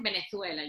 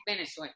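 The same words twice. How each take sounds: First: "Venezuela" with a Castilian th for the z; imitated Spain pronunciation. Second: "Venezuela" with an s for the z; softer "Venezuela", z turned to s; Venezuelan pronunciation. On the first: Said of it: "no me digas Venezuela". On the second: Shown as a demonstration. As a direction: say the z of "Venezuela" as a plain s. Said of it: "a mí no me pronuncias la zetica".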